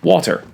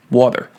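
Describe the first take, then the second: First: "Water" said higher, as wa and ter with a clear T; "Water" in two distinct syllables, crisp T; water split in syllables. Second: Said in the usual way. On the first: Shown as a demonstration. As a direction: pronounce "Water" carefully as wa-ter. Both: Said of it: "splitting this up into wa and ter".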